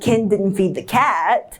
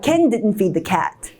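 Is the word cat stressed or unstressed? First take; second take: stressed; unstressed. First: The word cat carries contrastive stress. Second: The word cat carries no special stress.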